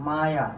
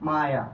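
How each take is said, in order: No difference in how they are said.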